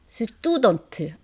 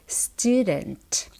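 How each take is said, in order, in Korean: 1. 이건 된소리이고 거센소리가 아닌 한국어 소리예요. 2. 이건 더 가볍고 거센소리인 영어 소리예요. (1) "student 아니고" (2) "st, student 오케이?"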